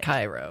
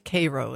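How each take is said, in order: First: It is said the way the Egyptian capital is said. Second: It is said the way the Illinois town says it. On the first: It names the foreign capital. "and not ... Cairo" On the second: It names the Midwest town. "that's why it's Cairo, Illinois"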